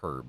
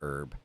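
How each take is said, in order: First: The word starts with a clear H sound. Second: The word starts with a vowel, no H sound. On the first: The speaker calls it right. "No, it's herb" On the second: The speaker calls it wrong. "I was pronouncing herb incorrectly by saying herb"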